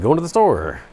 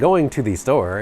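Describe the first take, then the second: First: The T sounds are dropped. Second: The T sounds are clearly pronounced. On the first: The speaker calls it right. "People don't say T's in Georgia" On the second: The speaker calls it wrong. "It is not"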